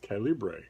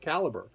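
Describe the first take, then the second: First: The name ends with a French-style 'bray' sound. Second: The name ends with a plain English 'ber' sound. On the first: The speaker calls it wrong. "I have been pronouncing on this channel as Calibre forever" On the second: The speaker calls it right. "when actually it's called Caliber"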